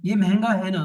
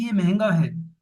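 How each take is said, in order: First: ये महंगा है ना with a seeking-agreement lift on ना; ये महंगा है ना, the ना inviting a nod; tag question tune. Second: Said in the usual way. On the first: Shown as a demonstration. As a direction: end on ना as if asking for agreement. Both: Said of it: "तो दोनों में फर्क है".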